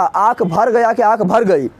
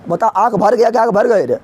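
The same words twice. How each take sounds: First: Slow, drawn-out question to the class; धीमा सवाल. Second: Said in the usual way. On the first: Shown as a demonstration. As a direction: stretch each word so students catch the choice. (धीरे-धीरे खींचकर पूछा गया सवाल)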